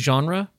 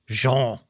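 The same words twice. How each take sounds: First: The word is said the everyday, casual way. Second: The word is said the formal, pretentious way. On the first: The speaker calls it wrong. "when we say genre, that's not really how you're supposed to say that" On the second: The speaker calls it right. "It's like genre. But that sounds so pretentious"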